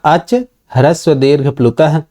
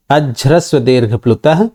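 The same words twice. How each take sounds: First: अच said apart from ह्रस्व दीर्घ प्लुतः, unjoined; words separated. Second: अज्ह्रस्व run together as one word; fuse अच into ह्रस्व, giving अज्ह्रस्व with a voiced j; joined by sandhi. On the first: Teacher splitting the sutra for students, अच pronounced separately. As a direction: keep अच a separate word before ह्रस्व. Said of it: "पदच्छेद करेंगे". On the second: Teacher showing students the sandhi, अज्ह्रस्व pronounced joined. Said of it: "संधि होकर के". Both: Shown as a demonstration.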